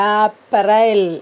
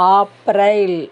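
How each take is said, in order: No difference in how they are said.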